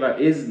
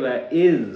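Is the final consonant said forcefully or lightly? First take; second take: forcefully; lightly. First: The final consonant is pushed out with heavy force. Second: The final consonant is said lightly without extra force. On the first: The speaker calls it wrong. "इसके ऊपर ज़ोर दे के वइज़ नहीं पढ़ेंगे" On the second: The speaker calls it right. "बल्कि वइज़ वाअदना"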